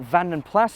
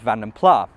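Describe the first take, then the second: First: The final S of the name is sounded. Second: The final S of the name is silent. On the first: The speaker calls it right. "the S at the end should be pronounced" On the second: The speaker calls it wrong. "leave the S off and pronounce it as"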